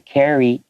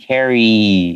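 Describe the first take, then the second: First: The word ends with a clear ing sound. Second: The word ends in a long ee sound. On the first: The speaker calls it right. "make sure you say carrying" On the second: The speaker calls it wrong. "it just sounds like they're saying carry with a long Y sound"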